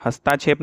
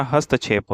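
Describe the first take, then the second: First: हस्ताक्षेप with a long aa after st: hast-aa-kshep; हस्ताक्षेप pronounced with the wrong long vowel; wrong spelling said aloud. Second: हस्तक्षेप with a short a: hast-kshep; हस्तक्षेप pronounced the correct way; correct pronunciation. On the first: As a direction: say हस्ताक्षेप stretching the middle aa as the error. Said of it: "हस्ताक्षेप नहीं होता". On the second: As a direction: say हस्तक्षेप crisply, no long vowel after st. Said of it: "हस्तक्षेप होता है". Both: Shown as a demonstration.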